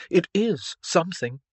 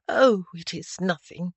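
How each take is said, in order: First: "is" punched to contradict; stress on is. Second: Said in the usual way. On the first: Acted. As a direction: lean firmly on "is". Bertrand contradicts her, stressing the verb.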